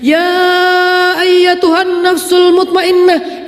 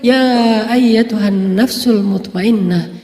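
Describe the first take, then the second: First: It is called out loudly, sounding angry. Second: It is called softly, sounding gentle.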